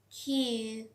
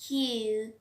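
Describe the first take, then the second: First: The Q is said with a strong puff of air. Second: The same.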